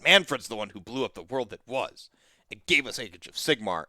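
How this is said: The tone sounds negative and disapproving. The event is viewed as a bad thing.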